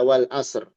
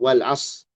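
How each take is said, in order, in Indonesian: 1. Bunyi r di akhir terdengar, tetapi tebal tipisnya belum jelas. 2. Bunyi r di akhir tidak diucapkan. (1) "Itu nggak jelas tebal tipisnya" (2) "hirang roknya"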